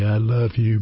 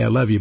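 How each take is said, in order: First: It is said in a tender, romantic tone. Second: It is said in a casual, friendly tone. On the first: It expresses love for a spouse. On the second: It expresses affection for a friend.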